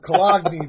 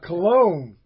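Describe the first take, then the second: First: It is said with a local regional pronunciation. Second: It is said with the standard pronunciation.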